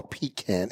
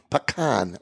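First: Pecan said "PEE-can", with a long ee and a short a. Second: Pecan said "puh-KAHN", stress on the second syllable. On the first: Host offering the other regional version, pecan as PEE-can. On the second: Host offering one regional version of the nut's name, pecan as puh-KAHN. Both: Shown as a demonstration. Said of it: "or pecan, if you would".

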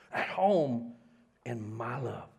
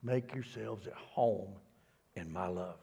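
First: "At home" pressed, the rest trailing down; stress on home. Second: Slow, soft reading of the verse; plain reading of the verse; slow scripture reading. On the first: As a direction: dwell on "home". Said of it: "Oh, look here". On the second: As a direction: read it out slowly and gently. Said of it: "this is the Message translation". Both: Shown as a demonstration.

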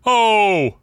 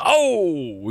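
First: Higher, louder mock New Jersey mobster yell; Sopranos-style crowd yell. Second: Said in the usual way. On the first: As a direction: bellow it like a Sopranos extra. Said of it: "It was totally like a Sopranos". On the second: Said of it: "it wasn't like a".

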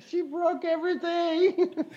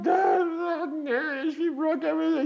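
First: High, slower, tearful repeat; slow, high and tearful, each word of She broke everything drawn out; retold crying. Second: High, tearful cry to his dad; tearful, high-pitched plea; retold crying. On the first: Repeating it to a shocked Dad, slower and tearful. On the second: To Dad on the phone after the breakup, crying high. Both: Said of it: "I was crying".

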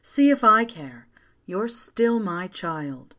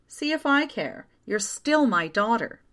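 First: Lightly voiced mother, slowing at the end; remembered mother. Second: High, exasperated reassurance; huffy. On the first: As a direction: linger slowly on the final reassurance. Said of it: "my mother had said all those years ago". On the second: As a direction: huff it out, starting high then settling. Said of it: "June's mother huffed miserably". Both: A narrator's reading.

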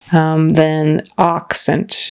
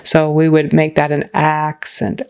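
First: Accent with a broad ah, said slowly; British style accent. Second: Accent with a short flat a; American a in accent. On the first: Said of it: "more like a British accent". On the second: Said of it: "for an American accent". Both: Shown as a demonstration.

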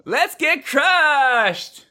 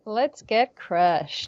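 First: Very high, long drawn-out party squeal; hammed-up Valley Girl party cry; Valley Girl student. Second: Softer, slow, drawn-out party line; half-hearted slow echo of a party cry; subdued echo. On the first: Interviewer as high school partier, squealing Valley Girl. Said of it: "a Valley Girl, Californian high school student". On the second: Acted. Actress repeating the interviewer's line, subdued and slow.

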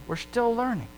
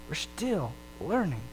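First: Leans on the word still, firmly; stress on still. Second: Drops to a near hush on the repeat; soft echo. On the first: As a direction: push still, then let learning fall. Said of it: "repeated line, first take". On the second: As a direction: let it fade, like an afterthought. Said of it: "repeated line, softer echo". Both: Shown as a demonstration.

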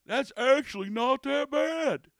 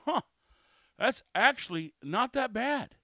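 First: High, loud, drawn-out mock verdict; exaggerated put-on voice, slow and raised; mocking customer impression. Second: Mildly surprised verdict after a first sip; a "huh", then grudging approval, a little higher and louder; pleasantly surprised customer. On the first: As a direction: parody the insultingly surprised drinker. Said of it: "It's kind of insulting". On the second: Acted. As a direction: react like a skeptic who likes it. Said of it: "They take a drink and they go".

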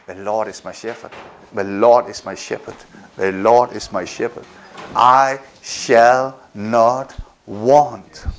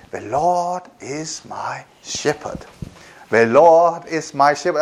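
First: Much lower, hushed, slow prayerful murmur; quiet calm recitation. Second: Calm recitation. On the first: Preacher showing how to quiet a racing head, low hushed recitation. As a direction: let it settle deep and low, like a whispered prayer. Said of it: "So say". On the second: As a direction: speak it gently to calm yourself. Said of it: "I just say". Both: Shown as a demonstration.

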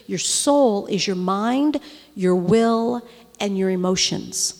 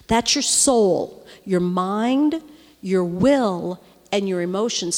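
First: Each word given weight, slowly; teaching emphasis. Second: "soul", "mind", "will" each hit hard; repeated emphasis. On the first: Preacher slowly teaching the congregation what the soul is. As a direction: spell out "soul" and its three parts. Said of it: "But listen, your soul". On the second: Preacher repeating the lesson with stress on each word. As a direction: drive home "soul", "mind", "will" one by one. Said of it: "listen, this is good". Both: Shown as a demonstration.

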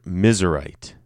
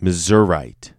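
First: Missourite said MIZ-er-ite; misery-like Missourite pronunciation. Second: Missourite said muh-ZUR-ite; first-choice Missourite pronunciation. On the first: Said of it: "that's us in misery". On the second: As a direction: say Missourite with a reduced first syllable. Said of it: "I wanna say". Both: Shown as a demonstration.

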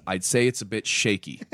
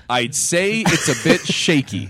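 First: Said in the usual way. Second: Drawn-out, louder punchline; slow punchline delivery. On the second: Retold or imitated. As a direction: land the joke slowly and loudly. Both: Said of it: "That's the joke".

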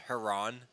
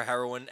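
First: Heroin squashed into "Heron"; "Heron", two syllables in place of heroin; mispronounced heroin. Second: Said in the usual way. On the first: Shown as a demonstration. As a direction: say "Heron" for heroin, ending in -ron with no "-in". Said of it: "ask for heroin as Heron". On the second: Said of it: "heard anyone ask for heroin as Heron".

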